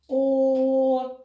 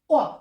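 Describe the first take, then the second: First: The vowel is loud, long and drawn out. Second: The vowel is short and sharp. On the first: "промовляю голосно, подовжено, чітко" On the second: "вимова звука коротка і різка"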